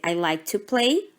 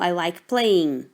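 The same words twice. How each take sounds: First: Said in the usual way. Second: Slow model phrase. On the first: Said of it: "Eu poderia dizer". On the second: Shown as a demonstration.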